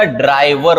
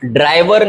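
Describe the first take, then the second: First: ड्राइवर with a short glide, draai-var; correct pronunciation. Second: ड्राइवर with a long ee, draa-ee-var; wrong pronunciation. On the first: Teacher correcting it, ड्राइवर said as draai-var. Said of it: "होता है". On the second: Teacher showing the mistake, ड्राइवर said as draa-ee-var. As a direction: stretch the ee in ड्राइवर. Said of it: "बड़ी ई की मात्रा थोड़ी आती है". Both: Shown as a demonstration.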